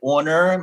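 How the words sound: The name is said with a northern American pronunciation. "My friends north of the Mason-Dixon line usually say Owner"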